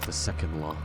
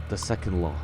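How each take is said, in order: Both takes have the same delivery.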